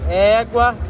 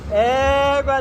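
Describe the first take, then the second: First: It is said with an angry tone. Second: It is said with a happy tone.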